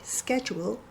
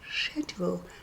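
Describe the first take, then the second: First: It is said in an American accent. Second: It is said in an English accent.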